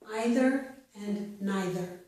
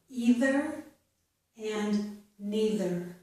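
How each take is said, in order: First: The first vowel sounds like 'eye'. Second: The first vowel sounds like 'ee'. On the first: "Some people pronounce it as I, which is also correct" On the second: "I pronounced this first vowel sound as E"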